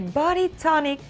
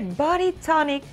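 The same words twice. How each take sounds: First: It is said in an exaggerated put-on accent. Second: The same.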